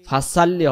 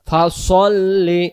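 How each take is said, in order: First: The s sound is light and thin. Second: The s sound is heavy and emphatic. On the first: The speaker calls it wrong. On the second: The speaker calls it right.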